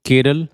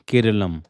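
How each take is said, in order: First: The name ends on a vowel sound. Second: The name ends with an m sound. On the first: The speaker calls it wrong. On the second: The speaker calls it right.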